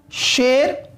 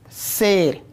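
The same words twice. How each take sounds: First: शेर opened with a hushing "sh"; clear "sh" sound. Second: शेर said as "ser", with a hissing s; plain "s" sound. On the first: Teacher showing students the lion word, crisp "sh". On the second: Teacher showing students the weight-unit word, plain "s". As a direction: say "s" in place of "sh" in शेर. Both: Shown as a demonstration. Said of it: "तो वो शेर और ये शेर हो गया".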